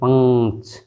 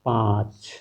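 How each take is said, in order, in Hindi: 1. नाक वाली ध्वनि पूरी तरह और ज़्यादा ज़ोर से बोली जाती है। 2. नाक वाली ध्वनि हल्की, कोमल और अर्ध-स्वरित है। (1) "हम इस तरह पढ़ते" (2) "चंद्र बिंदु लगा दें तो"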